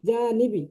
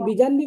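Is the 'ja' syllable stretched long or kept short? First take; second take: long; short. First: The 'ja' is stretched long before 'nibi'. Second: The 'ja' is short, run into the next syllable. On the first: The word keeps its intended meaning. The speaker calls it right. "বিজা টান দিয়ে পড়তে হবে" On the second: It becomes a different word with another meaning. The speaker calls it wrong. "আপনি যদি বিজানবি বলেন তাহলে শব্দ চেঞ্জ হয়ে যাবে"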